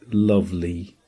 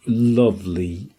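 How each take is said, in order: Both takes have the same delivery.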